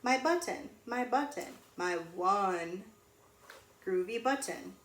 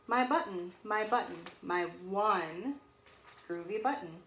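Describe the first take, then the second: No difference in how they are said.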